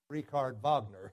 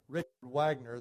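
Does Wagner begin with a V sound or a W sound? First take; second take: V sound; W sound. First: Wagner begins with a V sound. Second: Wagner begins with a W sound. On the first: "The W is a V" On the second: "instead of Richard Wagner"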